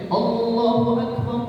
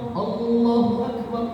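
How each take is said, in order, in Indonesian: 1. Bunyi 'l' pada 'Allah' pendek. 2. Bunyi 'l' pada 'Allah' pendek.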